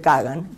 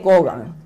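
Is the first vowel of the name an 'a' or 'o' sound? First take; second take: a sound; o sound. First: The first vowel sounds like 'a'. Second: The first vowel sounds like 'o'. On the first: This is how Russians actually say the name. "en ruso se dice Kagan" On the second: This is the surname as written. "es el apellido Kogan"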